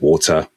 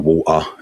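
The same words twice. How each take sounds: First: The middle t is a clear t. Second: The middle t is a glottal stop. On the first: It marks a standard speaker. "instead of water" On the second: It marks a Cockney speaker. "You'd also hear that glottal stop, so water"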